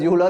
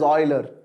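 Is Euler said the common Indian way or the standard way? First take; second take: Indian; standard. First: Euler is said the common Indian way. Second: Euler is said the standard way. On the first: The speaker calls it wrong. "in India we pronounce it as Euler" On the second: The speaker calls it right. "the right way to call it is Euler"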